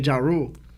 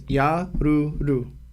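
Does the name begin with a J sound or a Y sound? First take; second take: J; Y. First: The name begins with a J sound. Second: The name begins with a Y sound. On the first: This is an English reading of the spelling. "since I'm American and I see a J, I say Jaru" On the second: This is the original Japanese pronunciation. "his name in Japanese is called Yaruru"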